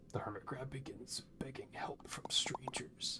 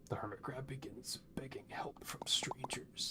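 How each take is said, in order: First: It is read in a dramatic movie-trailer voice. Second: The same.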